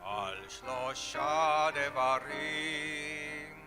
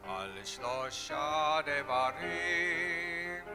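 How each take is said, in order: Both takes have the same delivery.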